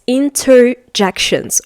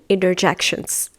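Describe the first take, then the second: First: Every sound is said fully, as spelled. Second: Some sounds are reduced in an American way. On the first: "when you write it, it's interjections" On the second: "But I'm saying interjections"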